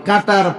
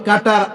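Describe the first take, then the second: No difference in how they are said.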